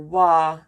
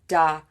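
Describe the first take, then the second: First: The word starts with a w sound. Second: The word starts with a d sound. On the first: "or wa" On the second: "People are saying da"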